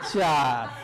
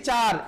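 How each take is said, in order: First: It is said with a swaggering, film-hero attitude. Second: It is said plainly and politely, without swagger. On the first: The student answers like a confident movie hero. "देखो फिर attitude देखा। ... South movie ... hero ... इसने कहा चार।" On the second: The student answers as an ordinary polite pupil. "इसने ऐसे नहीं कहा सर जी चार"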